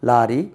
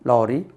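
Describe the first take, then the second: First: The first vowel is an open aa sound. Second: The first vowel is between aa and o. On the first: The speaker calls it wrong. "முதல்ல இதை சொல்லுவேன்" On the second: The speaker calls it right. "ரெண்டாவது correct use பண்ணுவேன்"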